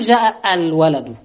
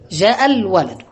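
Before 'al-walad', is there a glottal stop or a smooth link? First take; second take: glottal stop; smooth link. First: A glottal stop separates the two words. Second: The two words run together without a stop. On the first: The speaker calls it wrong. "لا تقول جاء الولد" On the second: The speaker calls it right. "إذا جاءت الولد في نصف الكلام في منتصف الكلام تقول"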